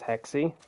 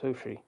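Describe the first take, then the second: First: The name is said like 'hex-ee'. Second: The name is said like 'who-she'. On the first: This is how many players say the name. "A lot of people were saying it's Hexy" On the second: This is how a native speaker says the name. "but he pronounced it Hushi"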